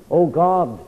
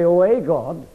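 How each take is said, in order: First: "Oh God" with no a, God said straight and firm; "Oh God", no article, land on God; correct reading. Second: "Oh, a God" with a small added a before God; mock wrong reading. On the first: Preacher giving the true reading, "Oh God" said firmly. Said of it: "Not at all". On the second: Preacher mocking the door-knockers' reading, "a God" said lightly. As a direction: slip the a in: "a God", one god among many. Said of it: "He doesn't say". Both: Shown as a demonstration.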